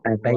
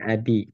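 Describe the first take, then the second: First: The word has an 'ai' diphthong in the middle. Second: The word has a plain 'i' vowel in the middle. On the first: The speaker calls it right. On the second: The speaker calls it wrong. "bukan abi"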